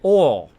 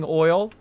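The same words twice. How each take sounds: First: Oil is said in a Southern accent. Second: Oil is said in a standard accent. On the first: "They'll say oil. There's like no other letters. There's just the O" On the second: "That's kind of the normal way of saying oil"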